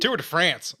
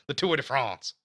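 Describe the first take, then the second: First: It is said with a hick American accent. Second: It is said with a French-style accent.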